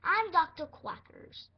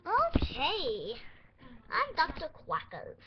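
First: Slow, louder mock doctor voice; a second, more deliberate pretend doctor take; slow, loud, lightly voiced pretend doctor; doctor voice again. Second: A hint of a silly doctor voice, louder; lightly voiced pretend doctor; put-on doctor voice. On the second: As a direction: introduce yourself as a goofy doctor. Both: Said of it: "not my accent".

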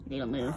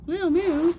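First: Said in the usual way. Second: Put-on high, loud cooing baby voice; high baby talk. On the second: Shown as a demonstration. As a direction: coo it up high at the pet.

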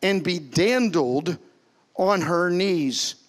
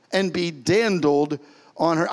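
First: Slow, drawn-out reading of dandled; slow scripture reading. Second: Drawn-out "dandled" with a rising end; slow repeat. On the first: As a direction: linger on every word, reading scripture. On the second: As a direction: say it again slowly, savouring "dandled". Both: Shown as a demonstration. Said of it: "Dandled is sha'ah".

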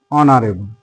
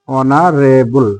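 First: Said in the usual way. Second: অনারেবল drawn out slowly as o-na-re-bul, no h; silent h demo. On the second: Shown as a demonstration. Teacher spelling out the word slowly for students. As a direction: stretch অনারেবল syllable by syllable, h unsounded. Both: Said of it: "এইচ এর sound পাচ্ছি না".

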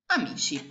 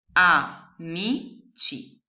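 First: Said in the usual way. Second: Very slow "Amici" spelled out as A-MI-CI; syllable by syllable. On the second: Shown as a demonstration. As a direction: sound out "Amici" slowly. ("Amici" scandito lentamente) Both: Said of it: "La prima parolina è".

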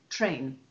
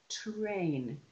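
First: Said in the usual way. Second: "train" drawn out slowly, blend pulled apart; slow articulation of "train"; sounded out. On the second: Shown as a demonstration. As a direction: stretch "train" from the t into the r.

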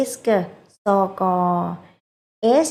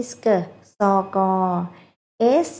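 The two takes are said the same way.

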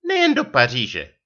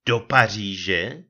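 First: Higher, louder retort with a falling end; manželčina odseknutá odpověď. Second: Drawn-out question in mild astonishment; krajní úžas. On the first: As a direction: fire it back as the offended wife. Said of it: "otušila". (dotčená odpověď manželky) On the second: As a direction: breathe it out slowly, amazed, rising at the end. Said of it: "vydechl jsem v krajním úžasu". (užasle protažená otázka) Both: A narrator's reading.

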